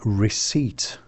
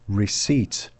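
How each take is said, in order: The two takes are said the same way.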